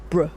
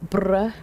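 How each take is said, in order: First: Said in the usual way. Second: BRUH with a drawn-out rolled R. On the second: Real, not acted. Greeting a chatter named Bruh, rolled R. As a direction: roll the R in Bruh. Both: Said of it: "had to roll that R".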